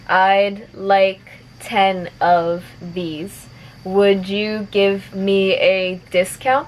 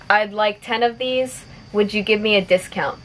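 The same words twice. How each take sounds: First: The sentence is spoken at moderate speed. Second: The sentence is spoken at natural speed. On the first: "a little bit faster" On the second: "one more time at normal speed"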